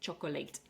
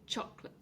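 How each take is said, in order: First: The word is said with three syllables. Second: The word is said with two syllables. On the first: The speaker calls it wrong. "it's not pronounced chocolate" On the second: The speaker calls it right. "pronounced as chocolate with two syllables"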